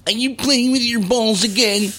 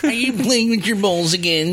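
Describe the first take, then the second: First: High nagging mother voice; his mother's voice. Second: High nagging mother voice; nagging mom. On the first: Retold or imitated. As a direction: nag like a fed-up mom. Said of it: "His mother used to ... and go". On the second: Pretend. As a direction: scold like a Queens mom. Voicing mom.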